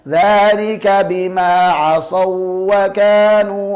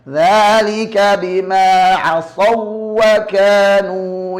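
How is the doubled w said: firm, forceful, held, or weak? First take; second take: weak; firm. First: The doubled w sound is said weakly. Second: The doubled w sound is clearly and firmly pressed. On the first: The speaker calls it wrong. "Yang kedua dibaca lemah ya" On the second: The speaker calls it right. "tasdidnya jelas dibaca nabar"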